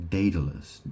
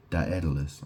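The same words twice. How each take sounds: First: "Daedalus" starting like "day": DAY-duh-lus; pronunciation attempt. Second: "Daedalus" starting like "die": die-ED-uh-lus; pronunciation attempt. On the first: Unsure how to pronounce that, "Daedalus" as DAY-duh-lus. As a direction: say "Daedalus" with an AY first vowel. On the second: Unsure how to pronounce that, "Daedalus" as die-ED-uh-lus. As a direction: say "Daedalus" with an EYE-EH opening. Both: Shown as a demonstration. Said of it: "I don't know how to pronounce that".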